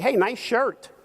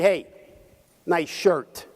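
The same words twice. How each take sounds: First: It sounds like a sincere compliment. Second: It sounds sarcastic, mocking the shirt.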